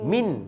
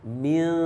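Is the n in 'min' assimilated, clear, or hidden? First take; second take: clear; hidden. First: The n is pronounced fully and clearly. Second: The n is hidden with a nasal hum. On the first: The speaker calls it wrong. "kalau izhar dia akan jadi min" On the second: The speaker calls it right. "Kita nak baca ikhfa. So dia akan jadi macam mana?"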